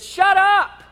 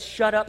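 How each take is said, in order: First: High, loud sharp command; commanding rebuke. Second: Said in the usual way. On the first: Retold or imitated. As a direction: shout the storm into silence. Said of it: "he says". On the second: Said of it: "He said".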